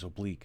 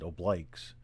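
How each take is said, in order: First: It uses the standard pronunciation of the word. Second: It uses the military pronunciation of the word. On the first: The speaker calls it right. "the actual correct pronunciation is oblique" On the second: The speaker calls it wrong. "the military pr- pronounces it obliques"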